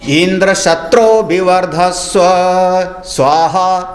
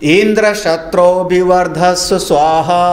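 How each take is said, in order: First: The syllable 'tro' is said with strong stress. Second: The syllable 'tro' is said without strong stress. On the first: A son who will kill Indra is wished for. The speaker calls it right. "जोर से पढ़ना चाहिए था त्रा को वहाँ" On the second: A son whom Indra will kill is wished for. The speaker calls it wrong. "उन्होंने उच्चारण क्या किया"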